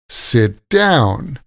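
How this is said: The stress is on the second word. It is used as a verb. "When we say the verb, we stress the second word"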